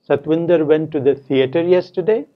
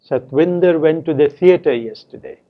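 First: The pitch rises on 'theater'. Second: The pitch falls on 'theater'. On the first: It is a question. "said with a rising tone on theater" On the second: It is a statement. "said with the following tone on theater"

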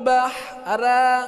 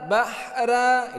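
No difference in how they are said.

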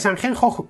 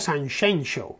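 First: The consonants are harsh sounds from the throat. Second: The consonants are soft 'sh' sounds. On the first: It is the Spanish form of the name. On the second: It is the Galician form of the name.

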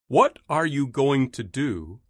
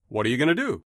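First: Each word is pronounced fully and separately. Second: The words are reduced and run together.

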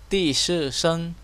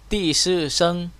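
The two takes are said the same way.

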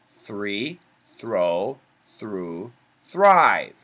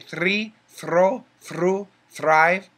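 First: The R sound is smooth, not trilled. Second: The R sound is rolled or trilled. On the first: The speaker calls it right. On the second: The speaker calls it wrong. "So no, there's no rolling R. We don't say"

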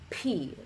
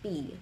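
First: The consonant is said with a strong puff of air. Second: The consonant is said with no puff of air. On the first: "completely push a lot of air through it" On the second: "you say P in such a way that there's no air that comes out. And it'll sound like B"

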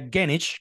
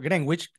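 First: It is said with an English pronunciation. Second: It is said with a Spanish-style pronunciation. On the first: This is how it is said in the United Kingdom. The speaker calls it right. "su pronunciación en inglés sería Greenwich" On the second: This is how locals in Caracas call it. The speaker calls it wrong. "conocemos y lo llamamos por Greenwich"

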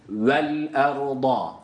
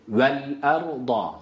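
The two takes are said the same way.

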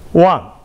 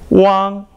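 First: The pitch falls sharply from high to low. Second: The pitch stays high and level.

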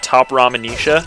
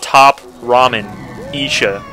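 First: The name is said quickly as one run. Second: The name is split into separate parts. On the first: It sounds like an ordinary name. "if you say it that fast" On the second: It reveals the noodle brand inside the name. "you break it up"

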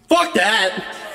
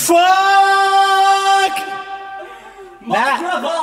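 First: It is said quickly and short. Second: It is said slowly and drawn out.

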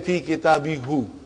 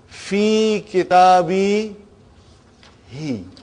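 First: The final pronoun has a u vowel. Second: The final pronoun has an i vowel. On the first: The speaker calls it wrong. "I won't say fi kitabi hu. ... it doesn't sound good" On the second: The speaker calls it right. "who became he"

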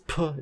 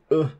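First: The p is released with a puff of breath. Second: The p is released as an ejective. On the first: "It's a little bit different than aspiration, so it's not the same as puh" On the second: "it's more like puh. That was absolutely terrible"

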